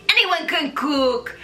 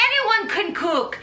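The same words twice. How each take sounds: First: Put-on slow, light French accent; barely there French chef accent; mock French chef again. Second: Lightly put-on French accent, higher; a loose French chef accent on "Anyone can cook"; half-hearted French chef accent; mock French chef. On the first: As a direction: draw out "Anyone can cook" like a French chef. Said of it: "in my mind, that sounded dope". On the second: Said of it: "Gustave is this famous French chef".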